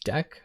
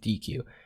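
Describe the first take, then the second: First: It is said as one short single word. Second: It is said as two separate letter names. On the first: The speaker calls it right. "the way that you pronounce it is deq" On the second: The speaker calls it wrong. "I was going to go through this whole video saying D Q"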